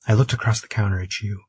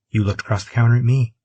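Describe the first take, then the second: First: Said in the usual way. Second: "You" and "me" leaned on as a retort; correcting, with weight on "You" and "me"; stress on YOU and ME. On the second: A narrator's reading. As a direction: hit "me" at the end to turn it around. Retort turning the claim around.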